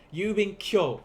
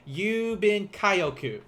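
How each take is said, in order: First: Yubin Kyo with "Kyo" in a single glide; emphatic Yubin Kyo, no break between k and yo; kyo as one syllable. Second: Kyo split into "ka-yo" in Yubin Kaioku; slow, exaggerated Yubin Kaioku with kyo broken in two; wrong extra syllable. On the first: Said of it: "That is one syllable". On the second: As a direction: stretch out Yubin Kaioku as "yuu-bin kai-o-ku", higher. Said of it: "It's not Yubin Kaioku". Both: Shown as a demonstration.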